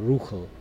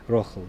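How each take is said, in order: First: The first vowel is an oo sound. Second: The first vowel is an oh sound. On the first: This is the Polish Yiddish pronunciation. "probably they would have more of a Polish pronunciation. They would be more Ruchel" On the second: This is the Lithuanian Yiddish pronunciation. "But a Lithuanian pronunciation, which is what I speak with my parents, would be Rochel"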